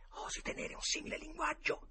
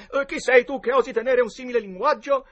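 First: High, soft stage whisper; feed your friend the forgotten line; whispered prompt. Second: High, loud declaimed challenge; recited challenge. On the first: (suggerimento sussurrato) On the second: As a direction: declaim the memorised line defiantly. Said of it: "secondo le regole, a memoria". (sfida declamata a gran voce) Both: A narrator's reading.

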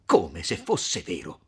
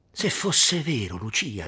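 First: Slow, offended repetition; drawn-out, scandalized query; indignant echo. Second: Heartfelt, wishful appeal; hopeful pleading. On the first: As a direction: throw the words back, affronted. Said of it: "il piccolo sdegno d'Agnese". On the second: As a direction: implore with eager expectation. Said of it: "con un'aria d'aspettazione supplichevole". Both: A narrator's reading.

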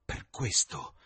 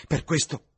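First: Said in the usual way. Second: Per questo pushed higher and louder; first take stressed. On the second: Acted. Dorian offre tutto per restare giovane, con enfasi. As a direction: hit questo hard, high and loud.

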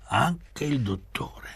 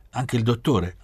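First: Higher, slow confirming answer; slow, high-pitched echo, falling at the end; drawn-out echo. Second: Higher-pitched query; quick, raised question before the answer; surprised question. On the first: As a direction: stretch the words out in a raised voice. Echoed answer in read dialogue. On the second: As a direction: ask it with a lifted voice. Question in read dialogue. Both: A narrator's reading.

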